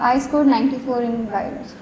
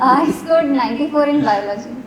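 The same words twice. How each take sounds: First: It is said at a softer volume. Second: It is said at a louder volume.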